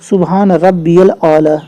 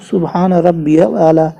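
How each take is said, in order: First: The middle word is said as rabbiyal. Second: The same.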